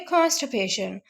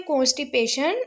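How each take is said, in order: First: कॉन्स्टिपेशन as "KAANS-tuh-PAY-shun"; teacher's model कॉन्स्टिपेशन, "kaanst-pay-shun"; correct pronunciation. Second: कॉन्स्टिपेशन read as "kos-TEE-pay-shun"; wrong pronunciation. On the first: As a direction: say कॉन्स्टिपेशन with open "kaa" and reduced "ti". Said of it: "इसको पढ़ेंगे कॉन्स्टिपेशन". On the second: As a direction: say कॉन्स्टिपेशन with a round "o" and clear "tee". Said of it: "इसको यूं नहीं पढ़ेंगे". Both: Shown as a demonstration.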